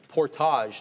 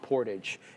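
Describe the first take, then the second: First: The word is pronounced in a French style. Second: The word is pronounced in an English style. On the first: The speaker calls it right. "that kind of French side to us" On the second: The speaker calls it wrong. "not portage"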